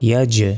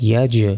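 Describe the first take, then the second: Both takes have the same delivery.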